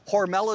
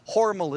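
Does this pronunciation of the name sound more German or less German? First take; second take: less German; more German. First: The name is said in a less German way. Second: The name is said in a more German way. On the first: This is how the company says the name. "Hormel is the company" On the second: This is how the family says the name. "Hormel is the family"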